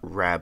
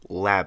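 First: The word begins with an R sound. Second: The word begins with an L sound. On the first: The speaker calls it wrong. "not Rab" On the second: The speaker calls it right. "Lab, not Rab"

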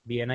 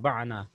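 First: The first vowel is a short 'i'. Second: The first vowel is an open 'a'. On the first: The speaker calls it right. "बिना ही पढ़ा जाएगा" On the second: The speaker calls it wrong. "हुन्ना क्या जब फतह ना, बाना, लेकिन नहीं है"

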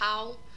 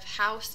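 First: The word's final consonant is left out. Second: The word ends with its final consonant. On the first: The speaker calls it wrong. "final consonant deletion" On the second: The speaker calls it right. "instead of"

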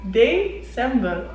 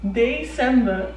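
No difference in how they are said.

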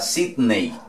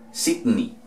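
First: The final vowel sounds like 'ay'. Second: The final vowel sounds like 'ee'. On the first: The speaker calls it wrong. "no vamos a decir" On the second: The speaker calls it right. "La E y la Y equivalen a una I"

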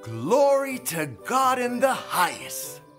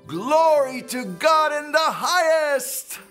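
First: It is said at normal volume. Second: It is said loudly.

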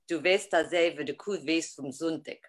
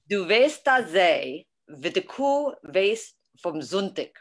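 First: It is said at a faster pace. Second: It is said at a slower pace.

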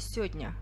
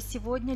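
First: The word is said in a shortened, reduced form. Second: The word is said in its full form.

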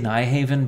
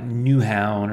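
First: The name is said with an English-style pronunciation. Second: The name is said with a Danish-style pronunciation. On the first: "I say Nyhaven" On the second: "the actual Danish pronunciation is something like Newhavn"

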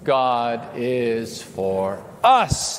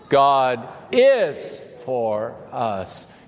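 First: The stress falls on the word 'us'. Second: The stress falls on the word 'is'. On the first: "emphasize a different word each time" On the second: "emphasize a different word each time"

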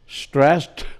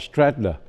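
First: The ending is a plain t sound. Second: The ending is an added extra syllable. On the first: The speaker calls it right. "đứng sau hai chữ S nó cũng đọc như là T" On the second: The speaker calls it wrong. "chứ không đọc là stressed"

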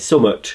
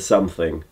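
First: The word is reduced to two short syllables. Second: The word is said in full, three clear parts. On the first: "I say summut instead of something" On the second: "instead of something"

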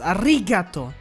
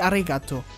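First: The second syllable 'ri' is clearly stressed. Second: The second syllable 'ri' is not stressed. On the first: The speaker calls it right. "ich muss das I so ein bisschen mehr betonen. Das Arigato" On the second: The speaker calls it wrong. "nicht arigato"

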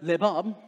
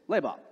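First: The stress is on the last syllable. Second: The stress is on the first syllable. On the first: The speaker calls it wrong. "If you're into French, it's not lebab" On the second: The speaker calls it right. "the accent goes in the first part, the first syllable"

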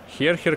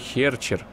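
First: The second consonant is a throaty 'kh' sound. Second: The second consonant is a 'ch' sound. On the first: The speaker calls it wrong. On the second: The speaker calls it right.

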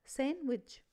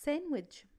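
Both takes have the same delivery.

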